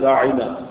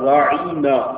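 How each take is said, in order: First: The word is pronounced plainly and clearly. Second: The word is pronounced with the tongue pressed down. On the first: A polite request for attention. The speaker calls it right. "عربی میں لفظ ہے راعینا" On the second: A mocking, insulting twist of the word. The speaker calls it wrong. "تھوڑا سا زبان دبا کر راعینا یوں پروناؤنس کرتے"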